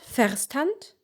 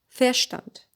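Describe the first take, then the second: First: The ver- is said fully as written. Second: The ver- is reduced to an 'a' sound. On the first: The speaker calls it wrong. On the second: The speaker calls it right. "you make it an a"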